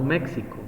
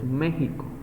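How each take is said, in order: First: The x is not said as a j sound. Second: The x is said as a j sound. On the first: This is how the name was originally pronounced. "como tal debería ser pronunciado México" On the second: This is the adapted Spanish pronunciation used today. "hablamos hoy en día de la X en esa palabra, por ejemplo, como J, por eso decimos México"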